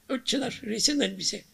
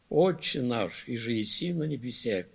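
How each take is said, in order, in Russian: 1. Молитву проговаривают быстро и небрежно. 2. Молитву читают медленно и внимательно.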